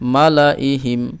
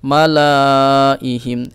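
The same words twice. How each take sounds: First: The middle vowel is kept short. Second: The middle vowel is drawn out long. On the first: The speaker calls it right. "পড়ব কিভাবে" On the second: The speaker calls it wrong. "এইভাবে আমরা পড়ব না"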